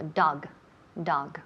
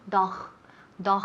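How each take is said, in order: First: DOG with a clean hard g, low pitch; correct English dog. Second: DOG ending in a raspy Spanish jota; wrong final sound. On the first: Teacher correcting the final sound, low clean model. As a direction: say "dog" low, ending in a voiced g. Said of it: "en inglés". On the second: Teacher showing an ugly learner sound, mispronunciation demo. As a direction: say "dog" with a throaty kh at the end. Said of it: "ese sonido no queda muy bonito". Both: Shown as a demonstration.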